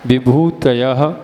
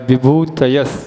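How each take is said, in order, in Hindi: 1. शब्द का अंत साँस वाली 'h' ध्वनि से होता है। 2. शब्द का अंत 's' ध्वनि से होता है। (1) "या विसर्ग बोल दो" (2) "या सा बोल दो"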